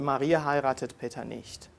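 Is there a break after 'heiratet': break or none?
none. The sentence flows without a break after heiratet. Maria does not marry Peter. "Wir haben einen Satz gehabt"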